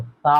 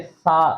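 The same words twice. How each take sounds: First: सा said with a soft lisped th, no whistle; the right way: सा without hissing. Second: सा said with an s whistle; the wrong way: सा with a hiss; wrong whistled sa. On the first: Teacher shows students the correct soft sa. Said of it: "वो सा होता है". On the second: Teacher shows students the wrong whistling sa. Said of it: "वो गलत है". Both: Shown as a demonstration.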